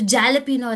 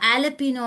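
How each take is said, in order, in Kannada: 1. ಪದ J ಧ್ವನಿಯಿಂದ ಶುರುವಾಗುತ್ತದೆ. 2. ಪದ ಸ್ವರ ಧ್ವನಿಯಿಂದ ಶುರುವಾಗುತ್ತದೆ. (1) "ಅದು ಜಾಲಪಿನೋ ಅಲ್ಲ" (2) "ಆಲಪಿನೋ ಅಂತ ಹೇಳ್ಕೊಡ್ತಾ ಇದ್ರು"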